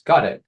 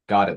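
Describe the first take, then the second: First: The pitch rises at the end. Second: The pitch falls at the end. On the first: The speaker sounds like customer service. The speaker calls it wrong. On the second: The speaker sounds confident and authoritative. The speaker calls it right. "you need downwards inflection"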